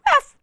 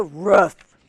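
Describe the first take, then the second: First: High-pitched little puppy "Roof"; puppy bark. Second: Said in the usual way. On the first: Shown as a demonstration. Reader showing how a puppy goes, high yip. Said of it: "a puppy would go". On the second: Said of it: "Or does he go".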